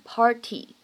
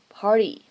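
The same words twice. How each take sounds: First: The t is a clear, full t sound. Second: The t is a soft, quick flap. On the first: "我们通常呢不会读成party" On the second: "而是呢会读成party，party，非常慵懒带过的感觉"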